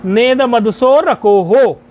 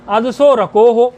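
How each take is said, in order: First: नेद मदसो रको हो slow and joined, vowels stretched; metrical pronunciation. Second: अदसो रको हो split into separate words at talking pace; word-by-word pronunciation. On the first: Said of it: "छंद की दृष्टि से इसका उच्चारण होगा". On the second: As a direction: say अदसो रको हो as prose, unchanted. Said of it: "ऐसा कर सकते हो आप". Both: Shown as a demonstration.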